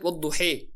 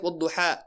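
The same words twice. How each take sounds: First: Wadduhi ending on a clear ee sound; dialect variant Wadduhi. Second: Wadduha ending on an open ah; dialect variant Wadduha. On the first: Teacher showing students one dialect's reading, Wadduhi with final ee. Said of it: "There's an Arabic dialect". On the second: Teacher contrasting another dialect for students, Wadduha with final ah. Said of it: "Then there's another dialect". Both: Shown as a demonstration.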